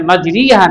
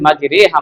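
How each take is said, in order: First: The second vowel sounds like 'ee'. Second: The second vowel sounds like 'eh'. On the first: The speaker calls it wrong. "মাজরিহা না বলে" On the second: The speaker calls it right. "মাজরেহা আমরা বলি"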